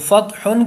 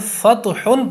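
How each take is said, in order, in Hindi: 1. 't' ध्वनि सपाट है, इसमें कोई गूंजता हुआ झटका नहीं है। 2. 't' ध्वनि में गूंजता हुआ झटका आता है। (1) "फ़त्हुन के बजाय" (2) "ता पर कलकला कर देते हैं"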